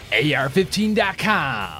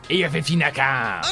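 First: It is said slowly with clear enunciation. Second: It is said casually, not clearly enunciated.

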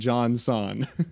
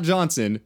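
First: The name is split into two separate words. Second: The name runs together as one word. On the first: The speaker calls it right. "it's John Son" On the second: The speaker calls it wrong. "It's not Johnson"

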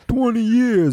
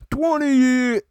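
First: It is said in a put-on theatrical voice. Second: It is said in a normal speaking voice.

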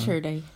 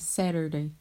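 First: It is said in a Cork Irish accent. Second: It is said in an American accent.

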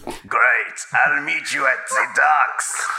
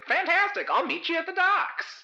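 First: It is said in a bitter tone. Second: It is said in a cheery tone.

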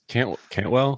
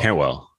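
First: The T is hard, with a break before 'well'. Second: The T is soft, with no break before 'well'. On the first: The speaker calls it wrong. "you hit the T so hard that it causes you to have to reset before you say the well" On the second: The speaker calls it right. "There you go"

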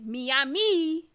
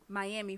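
First: Miami is pronounced with a Spanish-style pronunciation. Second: Miami is pronounced with an American English pronunciation.

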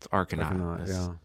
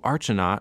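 First: The middle consonant is said as 'k'. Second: The middle consonant is said as 'ch'. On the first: The speaker calls it right. "Like it's Arcanaut" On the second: The speaker calls it wrong. "we had a CH in the name"

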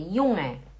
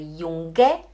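First: The ng is said as one nasal sound. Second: The g after the n is clearly pronounced. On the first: The speaker calls it right. "é Junge" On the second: The speaker calls it wrong. "não é Junge"

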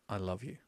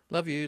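First: It is said slowly and with real feeling. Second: It is said in a quick, offhand way.

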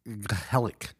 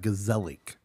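First: The word is said with a Dutch pronunciation. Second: The word is said as English spelling suggests. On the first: The speaker calls it right. "But I think it's Gezellig" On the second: The speaker calls it wrong. "it looks like Gezellig"

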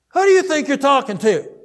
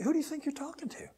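First: It is said angrily, with heat. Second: It is said calmly, without anger.

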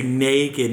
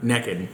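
First: The first vowel is a long 'ay' sound. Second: The first vowel is a short 'eh' sound. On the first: "I have to overpronounce the A and say naked" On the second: "not naked"

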